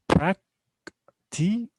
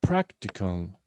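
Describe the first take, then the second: First: "Practical" very slow, in three separate beats; prac, ti, cal with long gaps in "Practical"; syllable by syllable. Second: Said in the usual way. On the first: Shown as a demonstration. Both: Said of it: "we have three syllables here".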